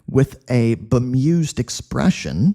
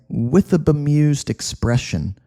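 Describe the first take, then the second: First: Each word is said separately and distinctly. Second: The words blur together into one smooth stream. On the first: The speaker calls it wrong. "I wouldn't say" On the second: The speaker calls it right. "You can combine these two words"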